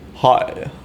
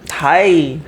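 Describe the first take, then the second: First: It is said in a deep, manly voice. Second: It is said in a normal voice.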